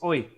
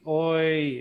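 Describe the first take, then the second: First: The word is short and sharp. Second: The word is drawn out long. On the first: The speaker calls it right. "it's a short, sharp, bouncy syllable" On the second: The speaker calls it wrong. "you can't drag it out either"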